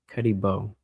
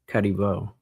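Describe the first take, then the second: No difference in how they are said.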